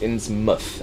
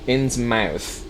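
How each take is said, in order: First: The last syllable is a short, reduced muth. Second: The last syllable sounds like the word mouth. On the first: The speaker calls it right. "Anything with mouth in an English town is pronounced muth" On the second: The speaker calls it wrong. "a lot of Americans will pronounce it this way. Innsmouth is technically incorrect"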